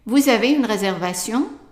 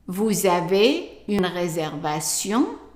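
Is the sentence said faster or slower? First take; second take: faster; slower. First: The sentence is said at a quicker pace. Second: The sentence is said at a slower pace.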